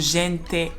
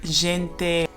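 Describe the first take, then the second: First: The consonant is palatalized, like 'dji'. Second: The consonant is plain, not palatalized.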